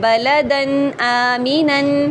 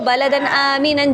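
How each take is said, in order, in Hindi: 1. यह वाक्यांश धीरे और सोच-समझकर बोला जाता है। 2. यह वाक्यांश जल्दी और हड़बड़ी में बोला जाता है। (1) "इस तरीके से" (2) "जल्दी से नहीं पढ़ेंगे"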